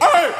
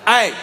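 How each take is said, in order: First: The yell cracks as the voice breaks. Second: The yell stays steady and controlled.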